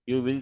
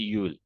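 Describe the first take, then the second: First: It is said as two full words. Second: It is said as one contracted word.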